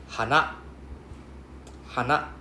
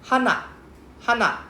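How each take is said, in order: First: HANA starting low and ending high; HANA rising from HA up to NA; low-to-high pitch accent. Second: HANA pitched high, then falling at the end; HANA high up with a falling tune; high-pitched flower accent. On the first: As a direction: lift the second syllable of HANA. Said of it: "we are low going to high". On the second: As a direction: start HANA high and let it drop. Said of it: "Then the flower one is hana". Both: Shown as a demonstration.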